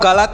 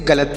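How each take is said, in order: First: Both vowels are drawn out as long aa. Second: Both vowels are short, clipped a sounds. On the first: The speaker calls it wrong. "इसे आप गालात तो नहीं पढ़ेंगे ना" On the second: The speaker calls it right. "आप इसे गलत पढ़ेंगे"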